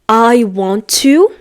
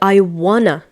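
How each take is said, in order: First: Each word is pronounced fully and separately. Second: The words blend together into a reduced 'wanna'.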